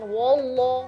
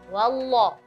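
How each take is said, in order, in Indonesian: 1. Bunyi wa di awal terdengar berat dan membulat. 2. Bunyi wa di awal terdengar ringan dan tipis. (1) "jangan wallah, wo" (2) "usahakan wawnya tipis"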